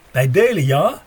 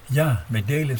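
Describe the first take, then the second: First: Put-on louder, lightly German-accented offer to share; a light German accent, eager and offering; German soldier offering to share his chocolate, louder. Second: Said in the usual way. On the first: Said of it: "met een zwaar Duits accent".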